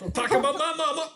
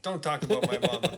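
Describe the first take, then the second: First: High, loud, quick mock outburst; hammed-up threat. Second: Playful, quick mock warning with some volume; mock threat. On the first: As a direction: blow up in comic outrage, voice shooting up. Escalated comic repeat of threat. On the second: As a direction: toss out a jokey warning, loud and quick. Joking rehearsal of threat.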